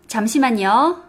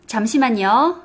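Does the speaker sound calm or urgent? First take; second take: calm; calm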